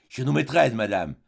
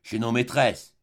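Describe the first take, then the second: First: Chez nos maîtresses repeated with a light theatrical lift; a touch of stage melodrama on chez nos maîtresses; melodramatic. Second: Said in the usual way. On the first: Acted. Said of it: "d'un ton mélodramatique". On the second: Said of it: "répéta Crevel".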